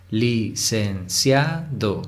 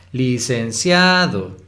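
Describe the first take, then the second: First: "Licenciado" very slowly, syllable by syllable, evenly; separado en sílabas. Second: "Licenciado" drawn out, leaning hard on CIA; acento en CIA. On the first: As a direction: break "Licenciado" into li-cen-cia-do, unhurried. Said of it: "Vamos primero a separar en sílabas". ("Licenciado" sílaba por sílaba, lento) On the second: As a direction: exaggerate the stressed CIA in "Licenciado", slowly. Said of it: "cia es la sílaba tónica". ("Licenciado" alargando y marcando la sílaba CIA) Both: Shown as a demonstration.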